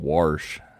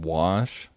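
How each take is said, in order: First: It is said Pittsburgh-style with an r sound. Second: It is said plainly, with no r sound.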